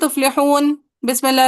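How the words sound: A brief break separates the two words. The speaker calls it wrong. "ये तो आप सकता कर रहे हैं।"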